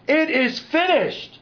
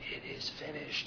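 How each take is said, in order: First: The phrase is cried out in a loud voice. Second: The phrase is gasped out weakly and breathily. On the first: The speaker calls it right. "he cried out with a loud voice" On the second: The speaker calls it wrong. "they have Jesus kind of gasping that out"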